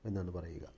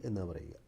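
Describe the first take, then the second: Both takes have the same delivery.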